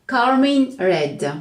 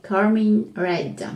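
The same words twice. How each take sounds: First: Said in the usual way. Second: Slow, careful English accent on Carmine Red. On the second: Shown as a demonstration. Naming the polish for viewers, in a mild English accent. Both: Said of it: "Avec l'accent anglais".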